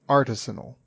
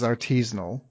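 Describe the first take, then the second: First: The stress is on the first syllable. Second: The stress is not on the first syllable. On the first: This is the form the dictionary gives. "a dictionary will tell you it's artisanal. With the emphasis on R and the first syllable" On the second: This is how most people say it. "everybody says artisanal"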